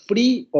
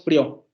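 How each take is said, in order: First: Frío with stress on the í, frí-o. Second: Frío said as one syllable, frio, stress on the o; wrong stress. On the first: Teacher shows the right stress to the class. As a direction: lean on the í of frío, two syllables. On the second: Teacher shows the wrong stress to the class. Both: Shown as a demonstration. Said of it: "no decimos frío".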